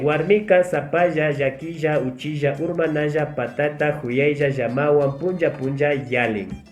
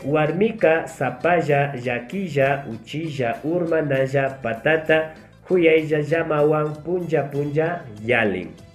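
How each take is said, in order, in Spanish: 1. Se dice a velocidad normal. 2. Se dice lentamente. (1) "Vamos a decir ahora de forma normal" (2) "la primera lenta"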